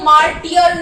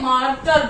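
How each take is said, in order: First: It is said with three syllables, mar-tee-er. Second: It is said with two syllables, mar-ter. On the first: The speaker calls it wrong. "मार्टियर नहीं बोलते" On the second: The speaker calls it right. "मार्टर बोलते हैं"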